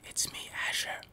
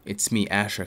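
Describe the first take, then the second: First: Soft unvoiced whisper; ASMR whisper. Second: Said in the usual way. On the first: Shown as a demonstration. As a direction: breathe it out in a whisper. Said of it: "How is it for A S M R?". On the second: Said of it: "Can you hear me?".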